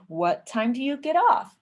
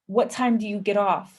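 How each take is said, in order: First: The pitch rises at the end of the question. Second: The pitch stays level without rising at the end.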